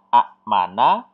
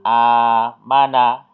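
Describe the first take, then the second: First: A glottal stop follows the short first vowel. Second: The first vowel is long, with no glottal stop. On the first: "Kalau dibaca apa adanya ini kan a mana" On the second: "menjadi alif ya, menjadi a mana"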